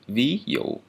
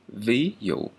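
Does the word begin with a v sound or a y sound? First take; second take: v sound; v sound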